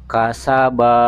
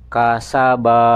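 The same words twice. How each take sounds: No difference in how they are said.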